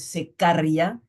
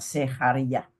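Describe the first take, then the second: First: The middle consonant is a hard k sound. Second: The middle consonant is a breathy, half-aspirated sound. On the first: The speaker calls it wrong. "Es una K, pero no es secaria" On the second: The speaker calls it right. "sino medio aspirada"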